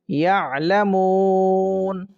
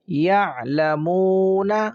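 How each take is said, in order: First: The word stops on the final consonant. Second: The word ends with a short vowel.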